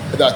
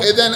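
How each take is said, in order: First: The word ends with a long a vowel. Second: The word ends with an n sound. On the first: The reader stops on this word. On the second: The reading continues without a stop.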